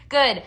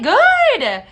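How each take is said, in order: First: Said in the usual way. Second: Excited. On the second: Real, not acted. Reacting to viewer's purchase.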